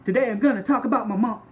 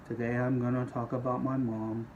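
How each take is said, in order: First: The voice is loud, bouncy and overexcited. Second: The voice is flat, slow and gloomy. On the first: The speaker is far too eager about the topic. "You do not have to sound like a cheerleader" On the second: The speaker seems uninterested in the topic. "You can't sound like Eeyore from Winnie the Pooh either"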